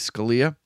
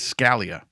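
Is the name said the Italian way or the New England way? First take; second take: Italian; New England. First: The name is said the Italian way. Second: The name is said the New England way. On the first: "The Italian pronunciation is" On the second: "The New England pronunciation is"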